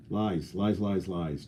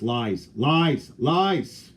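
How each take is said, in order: First: Lies trailing off softly; fading whisper of lies. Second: Said in the usual way. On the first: Pretend. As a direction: let the lies fade away. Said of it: "repeated softer". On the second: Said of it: "repeated louder first".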